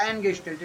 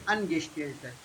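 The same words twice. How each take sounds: First: Angestellte starting like "an" in English; anglicised Angestellte. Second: Angestellte lower and softer, opening with ah; German A in Angestellte. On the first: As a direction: show the mistake, flat first A in Angestellte. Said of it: "It is not Angestellte". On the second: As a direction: open the first vowel of Angestellte. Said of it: "It is Angestellte". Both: Shown as a demonstration.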